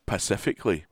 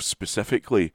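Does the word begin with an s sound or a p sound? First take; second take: p sound; s sound. First: The word begins with a p sound. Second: The word begins with an s sound. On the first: "as pacifically was found to be the most annoying" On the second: "The mispronunciation of specifically"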